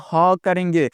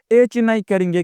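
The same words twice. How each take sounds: First: ह as an open "ha"; ह as the sound of letter H; Hindi sound for H. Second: एच as the English letter name, "aych"; एच named as in the alphabet. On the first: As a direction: say ह with breath first, then open vowel. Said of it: "उच्चारण ह करेंगे". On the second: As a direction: say एच ending in ch. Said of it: "हम एच नहीं करेंगे". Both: Shown as a demonstration.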